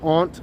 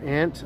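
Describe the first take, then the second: First: The word does not sound like the insect. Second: The word sounds just like the insect.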